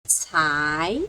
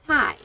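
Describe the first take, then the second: First: The pitch rises from middle to high. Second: The pitch falls sharply from high to low. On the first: "Second toe" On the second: "Fourth toe"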